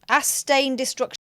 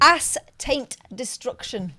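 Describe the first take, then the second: First: It is said at normal speed. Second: It is said slowly.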